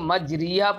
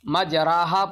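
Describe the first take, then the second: First: The vowel after r is a long ee. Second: The vowel after r is an open a. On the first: The alif turns fully into ya. "तब तो वो जो है या बन जाता" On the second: The alif stays a pure alif. "तो अलिफ बन जाता"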